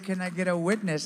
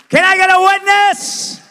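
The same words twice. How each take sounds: First: The question is said plainly and quietly. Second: The question is yelled loudly. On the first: "Or can I simply say" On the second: "Do I have to yell to you to say"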